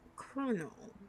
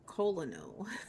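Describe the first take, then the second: First: It is said with an R, like kernel. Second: It is said as spelled, like col-o-nel. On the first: "It sounds like there's an R in there" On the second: "the way it's spelled is like colonel"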